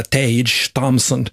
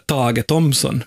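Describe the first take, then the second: First: Tage Thompson in American English; American accent, Tage as one syllable "tayj"; American pronunciation. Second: Tage as Swedish TAH-geh, before Thompson; Swedish pronunciation. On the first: Host correcting the player's name, American accent. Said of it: "inte det, utan han heter". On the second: Host introducing hockey player, Swedish pronunciation of Tage Thompson. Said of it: "han heter ju alltså inte det". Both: Shown as a demonstration.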